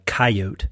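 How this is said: The word is said the Wyoming way. "I showed up in Wyoming, and everybody was calling it a coyote"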